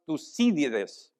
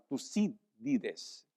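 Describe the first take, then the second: First: Said in the usual way. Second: Tucídides slowly, syllable by syllable, stressed on CÍ. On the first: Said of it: "con acento en la I". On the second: Shown as a demonstration. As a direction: spell out Tucídides by ear, slow, accent on the í. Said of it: "con acento en la I para que sea más fácil". (Tucídides despacio, con acento en la í)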